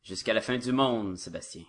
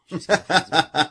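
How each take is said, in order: First: Said in the usual way. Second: Louder, higher vow broken by a laugh; mock dramatic vow. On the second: Swearing devotion to Sébastien, a hammed-up laughing vow. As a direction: belt it out like a lover's oath, half laughing. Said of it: "C'est à ce point-là que tu m'aimes?".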